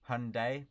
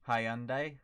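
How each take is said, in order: First: It is said the American way. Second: It is said the British and Australian way.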